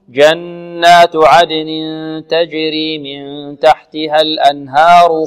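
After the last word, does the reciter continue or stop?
continues. The recitation continues without stopping after it.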